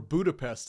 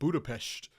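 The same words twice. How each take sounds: First: It is said with an English accent. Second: It is said with a native Hungarian accent. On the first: "or Budapest instead of" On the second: "pronounce foreign cities with the native accent"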